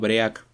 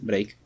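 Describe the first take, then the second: First: The word is read with Spanish-like sounds. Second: The word is said with English sounds. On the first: The speaker calls it wrong. "muy mal pronunciado" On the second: The speaker calls it right. "la pronunciación correcta es break"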